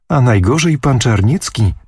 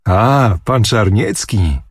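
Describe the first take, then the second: First: Said in the usual way. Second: Slower, relishing the name pan Czarniecki; delighted exclamation. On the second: A narrator's reading. Old miecznik rubbing his hands, gladly exclaiming at the news. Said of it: "krzyknął zacierając ręce miecznik".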